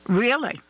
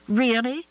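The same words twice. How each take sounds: First: Really falling firmly at the end; firm confirmation. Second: Really rising high at the end, disbelieving; surprised question. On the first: Michael confirms her doubt. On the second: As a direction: ask "Really?" with a hopeful upward lilt. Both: Acted.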